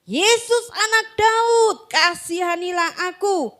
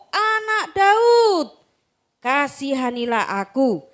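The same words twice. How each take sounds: First: High, slow plea; crying out. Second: Insistent beggar shouting for mercy; crying out louder. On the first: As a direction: call out to Jesus for mercy. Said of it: "mulailah ia berseru". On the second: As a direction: cry out even harder than the crowd. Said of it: "semakin keras ia berseru". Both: Acted.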